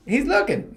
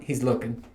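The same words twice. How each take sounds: First: "He's looking" said much higher, leaning hard on "looking"; emphatic repeat. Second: Said in the usual way. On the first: Shown as a demonstration. Telling listeners about the locker room, "He's looking" repeated high and emphatic.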